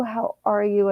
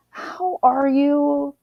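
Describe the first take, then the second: First: Said in the usual way. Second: High, very slow, sing-song how are you; cooing greeting. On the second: Real, not acted. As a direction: stretch it out sweetly like greeting a friend. Repeated greeting to viewers.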